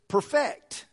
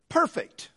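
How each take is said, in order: First: The stress is on the second syllable. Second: The stress is on the first syllable. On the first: To bring something into its final form. "putting the emphasis on the last part of the word" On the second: Entirely without fault or defect; flawless. "putting the strong sound on the front part of the word"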